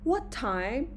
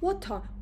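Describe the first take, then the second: First: The voice rises at the end. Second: The voice falls at the end. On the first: The speaker is checking something already heard. "متوجه میشین چرا این فلش سر بالا میزنه؟" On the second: The speaker is asking a normal new question. "مثل این با لحن فالینگ میگیم، intonation rising نمیگیم"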